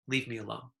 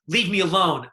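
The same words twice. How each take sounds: First: It is said flatly, without emotion. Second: It is said with heavy emotion.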